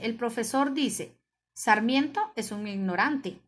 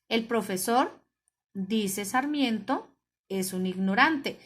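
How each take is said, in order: First: There is a single pause right after 'dice'. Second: Pauses fall before and after 'dice Sarmiento'. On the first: The professor calls Sarmiento ignorant. "el que dice que es un ignorante es el profesor" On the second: Sarmiento calls the professor ignorant. "ya Sarmiento es el que está diciendo"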